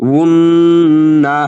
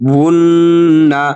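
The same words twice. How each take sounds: No difference in how they are said.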